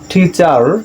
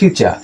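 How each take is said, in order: First: The final r sound is pronounced. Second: The final r sound is silent. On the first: The speaker calls it wrong. "Not টিচার" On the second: The speaker calls it right. "It will be টিচার, কারণ শব্দের শেষে আর আছে"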